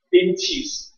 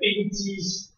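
First: The middle syllable starts with a 'ch' sound. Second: The middle syllable starts with a 'j' sound. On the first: The speaker calls it right. "这个字念气" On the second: The speaker calls it wrong. "请你不要念成冰积石"

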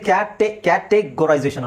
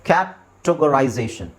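First: The second vowel is a full 'e' sound. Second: The second vowel is a weak 'uh' sound. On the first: The speaker calls it wrong. "So ಇದು ಕ್ಯಾಟೆಗರೈಸೇಷನ್ ಅಲ್ಲ" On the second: The speaker calls it right. "ಇಲ್ಲಿ ಇ ಅನ್ನೋದು ಕೆಲವು ಸಲ ನಿಮಗೆ ಅ ಅಂತ sound ಬರುತ್ತೆ"

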